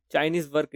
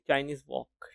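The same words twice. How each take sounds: First: Chinese वर्क with a clear r, said as work; वर्क spoken like the English work; rejected pronunciation. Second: Chinese वॉक with an open o and no r, like walk; वॉक said as walk, not work; corrected pronunciation. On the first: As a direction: Chinese work with the r sounded. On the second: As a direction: Chinese wok spoken as walk. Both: Shown as a demonstration. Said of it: "Chinese वर्क नहीं".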